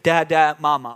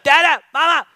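First: The calls are said at a calm, normal pace. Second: The calls are said more intensely and urgently. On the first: The child is simply calling for a parent. "at a pretty normal pace" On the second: The child is getting impatient for attention. "it's time to up the ante a little bit"

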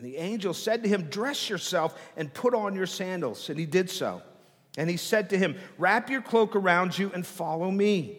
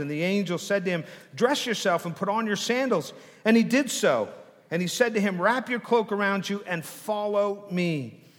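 No difference in how they are said.

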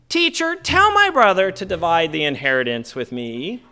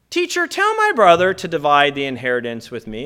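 First: It is said in a whiny tone. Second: It is said in a plain tone.

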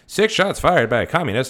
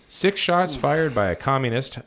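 First: It is read in an old-fashioned announcer voice. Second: It is read in a plain everyday voice.

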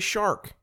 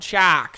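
First: It is said with standard American pronunciation. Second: It is said in a thick Boston accent.

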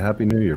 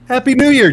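First: It is said flatly, with little energy. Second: It is said with lively, enthusiastic energy.

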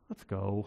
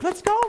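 First: It sounds frustrated and impatient. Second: It sounds thrilled and excited.

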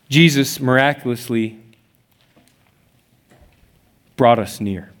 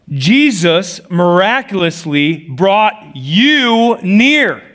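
First: It is said in a flat, sad way. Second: It is said with loud, excited energy.

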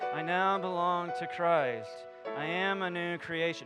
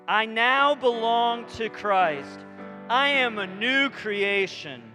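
First: It is said weakly and timidly. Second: It is said with strong conviction.

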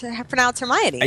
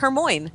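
First: The name ends with the sounds 'oh-nee'. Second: The name ends with the sound 'moyne'. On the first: The speaker calls it right. "how to pronounce Hermione" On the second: The speaker calls it wrong. "I was pronouncing it Hermoine"

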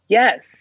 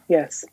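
First: It is said with more feeling and energy. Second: It is said flatly, without much feeling.

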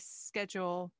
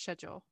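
First: It is said with an American pronunciation. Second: It is said with a British pronunciation. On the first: The speaker calls it wrong. "So I would say schedule" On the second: The speaker calls it right. "but it's schedule"

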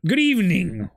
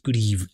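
First: It is said in a normal voice. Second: It is said in a very deep voice.

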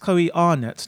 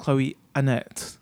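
First: The surname starts with a long 'ar' vowel. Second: The surname starts with a short 'a' vowel. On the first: The speaker calls it right. "that's how you would usually pronounce it if it had an R in it" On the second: The speaker calls it wrong. "not Chloe Annette"

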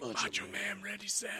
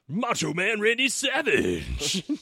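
First: It is said in a whispery, faint voice. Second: It is said in a full, loud voice.

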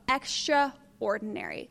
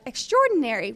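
First: It is split as extra plus ordinary. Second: It is run together as one word.

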